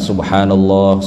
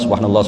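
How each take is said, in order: First: It is said slowly and carefully. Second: It is said hurriedly and sloppily. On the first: The recitation is done properly. The speaker calls it right. "pelan-pelan sepuluh kali saja, tapi bacaannya benar" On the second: The recitation is careless and incorrect. The speaker calls it wrong. "bacanya nggak karu-karuan"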